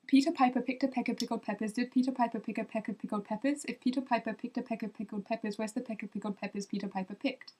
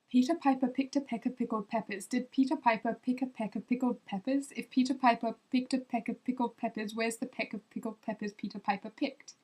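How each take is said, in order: First: Quick Peter Piper rattled off; fast. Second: Said in the usual way. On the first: Shown as a demonstration. Trying the English twister again for viewers, fast. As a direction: race through the peppers. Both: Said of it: "Try it faster".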